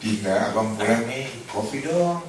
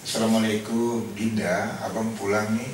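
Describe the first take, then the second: First: Coaxing, lightly tender husband asking for coffee; sweet greeting. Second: A mildly tender husband coming home; sweet greeting. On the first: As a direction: ask sweetly, winding up higher on kopi. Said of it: "merubah cara bertutur". (suami manja minta kopi dengan lembut) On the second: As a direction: greet your wife fondly at the door. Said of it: "Anda coba merubah cara bertutur". (suami menyapa istri dengan lembut) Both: Pretend.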